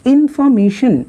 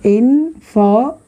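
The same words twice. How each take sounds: First: Said in the usual way. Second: "information" slowly in four beats, इन-फॉर-मे-शन; split syllables. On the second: Shown as a demonstration. Teacher showing four syllables, "information" slowly broken apart. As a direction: pause between all four syllables of "information". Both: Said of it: "ये four syllable के बने हुए हैं".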